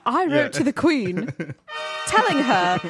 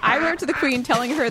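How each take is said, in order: First: It is read in a British accent. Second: It is read in the speaker's plain accent.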